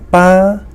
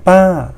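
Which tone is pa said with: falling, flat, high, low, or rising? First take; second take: high; falling. First: The pitch stays high throughout. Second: The pitch falls from high to low. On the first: Dad. "high tone" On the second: Auntie. "the falling tone"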